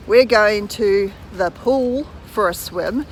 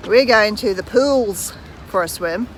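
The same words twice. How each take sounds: First: Said in the usual way. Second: "pools" said with an added s, as a plural; Aussie pools. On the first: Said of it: "we would say". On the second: Shown as a demonstration. Kiwi vlogger showing viewers the Australian phrasing. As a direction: add the s to "pools", Australian style. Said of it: "They would say".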